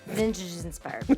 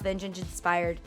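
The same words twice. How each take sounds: First: The words are said clearly and separately. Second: The words run together and sound slurred.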